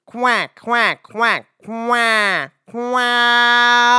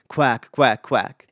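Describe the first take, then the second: First: Higher, louder twangy quacking; duck quack. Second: Said in the usual way. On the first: Shown as a demonstration. Teacher imitating a duck's real quack. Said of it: "It says". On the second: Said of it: "the duck doesn't say".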